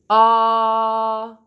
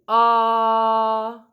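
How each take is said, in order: First: The vowel starts with a sharp catch in the throat. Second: The same.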